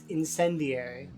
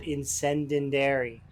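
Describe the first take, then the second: First: The word has no extra 'den' syllable. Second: An extra 'den' syllable is inserted mid-word. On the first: The speaker calls it right. "So it's incendiary" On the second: The speaker calls it wrong. "I used to call it incendendary ammo"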